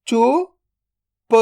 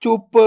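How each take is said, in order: First: "चुप" split into चु, then प, very slow; drawn-out breakdown of "चुप"; sound by sound. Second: Said in the usual way. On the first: Shown as a demonstration. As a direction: sound out चु ... प with a long gap. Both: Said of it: "तो मिलके बन जाएगा".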